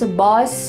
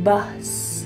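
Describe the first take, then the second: First: The vowel is not a short U sound. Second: The vowel is a clear short U sound. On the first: The speaker calls it wrong. "I want to make sure you're not saying" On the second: The speaker calls it right. "Make sure you say a bus"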